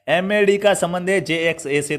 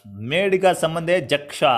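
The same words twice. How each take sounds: First: "एमएडी" as M-A-D and "जेएक्सए" as J-X-A, each letter apart; spelled letter by letter. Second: "मेड" और "जक्षा" को पूरे शब्दों की तरह पढ़ो, अक्षर अलग न बोलो; letters misread as the words "मेड" and "जक्षा"; read as words. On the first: (हर अक्षर अलग-अलग बोलकर पढ़ना) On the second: (अक्षरों को शब्द बनाकर गलत पढ़ना) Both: Shown as a demonstration. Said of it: "ऐसे मत पढ़ना यार".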